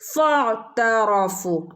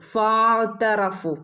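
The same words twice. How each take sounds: First: The first vowel is short and joined on. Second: The first vowel is drawn out long. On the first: The speaker calls it right. "കൂട്ടി ചേർത്ത് ഓതണം" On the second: The speaker calls it wrong. "പെട്ടെന്ന് നമ്മൾ ഫനെ നീട്ടാൻ നീട്ടി ഓതാൻ സാധ്യതയുണ്ട്. ഫഅ്തറഫൂ അങ്ങനെ ഓതരുത്"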